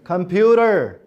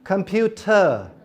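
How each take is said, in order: First: The t is said as a soft d-like flap. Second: The t is said as a clear t. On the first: "American, र ड और र का sound" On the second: "t, British"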